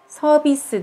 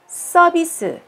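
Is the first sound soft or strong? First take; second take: soft; strong. First: The first sound is soft and plain. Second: The first sound is strong and tense. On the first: The speaker calls it wrong. "ではなく" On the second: The speaker calls it right. "最初の文字がちょっと強くなる"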